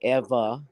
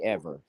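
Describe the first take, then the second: First: It is said in a creole Southern accent. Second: It is said in a plain redneck accent. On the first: This is how another person talks. "He'll say Eva" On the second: This is how the speaker himself talks. "like I say ever"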